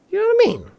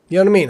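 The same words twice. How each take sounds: First: Very high squeaky question. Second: Said in the usual way. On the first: Pretend. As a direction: squeak it out playfully. Squeaky repeat of earlier question.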